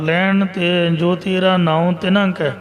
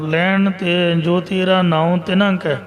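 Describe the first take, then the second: First: The pause comes after the word kai. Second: The same.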